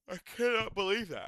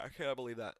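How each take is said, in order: First: High, louder cry of disbelief; stunned disbelief. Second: Said in the usual way. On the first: Real, not acted. Fan reacting to the fight result, stunned disbelief. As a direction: blurt it out in shock.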